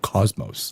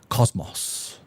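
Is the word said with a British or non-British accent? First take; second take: non-British; British. First: The word is said without a British accent. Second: The word is said with a British accent. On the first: "they don't say cosmos" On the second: "They say cosmos"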